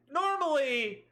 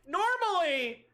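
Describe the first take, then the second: First: Said in the usual way. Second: Normally said high and falling, stressed. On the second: Shown as a demonstration.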